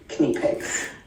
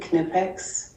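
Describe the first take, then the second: First: It is said with the standard German pronunciation. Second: It is said with the questioned regional pronunciation. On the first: The speaker calls it right. "the official German way of pronouncing things like that" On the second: The speaker calls it wrong. "I think there isn't any way of pronouncing it that way"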